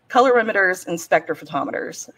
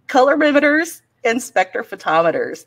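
First: It is said at normal conversational speed. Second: It is said slowly and carefully.

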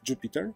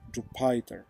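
First: The middle syllable does not sound like Python's 'py'. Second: The middle syllable sounds like the 'py' in Python. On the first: The speaker calls it right. "the correct pronunciation is Jupyter" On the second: The speaker calls it wrong. "some people pronounce Jupyter Jupyter, like in Python"

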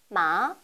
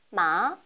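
First: The pitch rises from middle to high. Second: The pitch rises from middle to high.

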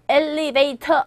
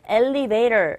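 First: The t is a hard, clear t sound. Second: The t is a soft flap, close to r. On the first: The speaker calls it wrong. "엘리베이터 안에서가 아니라" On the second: The speaker calls it right. "엘리베이터 이렇게 발음되고 있다는 거"

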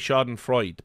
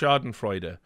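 First: The final E is dropped at the end. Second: The final E is sounded at the end. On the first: The speaker calls it wrong. "I hear a lot of people say schadenfreude" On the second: The speaker calls it right. "I think you pronounce the E"

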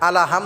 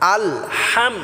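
First: An extra vowel follows al, giving three syllables. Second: Al joins ham directly, giving two syllables. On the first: The speaker calls it wrong. "আলা হাম হবে না" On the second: The speaker calls it right.

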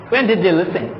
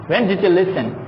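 The two takes are said the same way.

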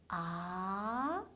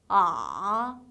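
First: The pitch rises clearly from low to high. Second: The pitch dips down, then springs slightly up. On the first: "아래에서 위로 올라가는 게 확실한 음이에요" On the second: "내려갔다 살짝 올라가는데"

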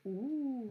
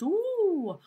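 First: It sounds like sharing a secret. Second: It sounds like a spooky ghost.

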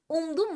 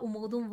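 First: The second-syllable vowel is dropped. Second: The second-syllable vowel is kept. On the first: The speaker calls it wrong. "Umdum mu diyoruz" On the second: The speaker calls it right. "Benim hala umudum var diyoruz değil mi?"

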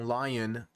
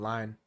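First: The word is said with two syllables. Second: The word is said as one syllable. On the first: "Instead of saying lion" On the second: "That's my North Carolina coming out. Instead of saying lion, I say line"

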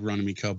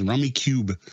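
First: The last syllable rhymes with 'tub'. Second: The last syllable rhymes with 'tube'. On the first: The speaker calls it wrong. "I was corrected by another podcaster when I said Rummy Cub once" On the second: The speaker calls it right. "correct others the same way as Rummy Cube"

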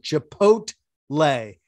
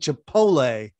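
First: The T sound is clearly pronounced. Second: The T sound is left out. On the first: The speaker calls it right. "you pronounce the T" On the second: The speaker calls it wrong. "you keep saying Chipotle, and it sounds yicky"

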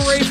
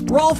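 First: It is said with a long 'ay' vowel. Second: It is said with an 'o' vowel and an l. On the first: The speaker calls it right. "but pronounced Rafe" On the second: The speaker calls it wrong. "Rolf has to Ralph"

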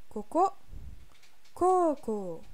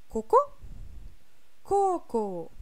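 No difference in how they are said.

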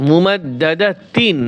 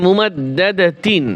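Both takes have the same delivery.

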